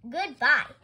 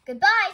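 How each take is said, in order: First: Loud, firm send-off; pointed dismissal. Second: High, loud, cheery goodbye; cheery farewell. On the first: Mister Rogers gets rid of Amelia at the office, pointedly. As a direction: dismiss them with one loud word. Getting rid of his headache. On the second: Amelia Bedelia thanks Mister Rogers for the ride, cheerily. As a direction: sing out a friendly farewell. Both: A narrator's reading.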